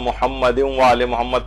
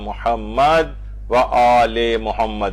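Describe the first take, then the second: First: The phrase runs on without a pause. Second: There is a pause after the first Muhammad. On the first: "वरना अमूमन हम मोहम्मद व आले मोहम्मद तशहुद में पढ़ते हैं ना" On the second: "इस तरह से पढ़ा जाता है। तो इसमें मोहम्मद के ऊपर वक्फ दे दिया जाता है।"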